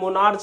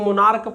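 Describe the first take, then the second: First: The word ends with a ch sound. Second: The word ends with a k sound. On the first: The speaker calls it wrong. "मोनार्च नहीं पढ़ा जाता है" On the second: The speaker calls it right. "इसको मोनार्क पढ़ा जाता है"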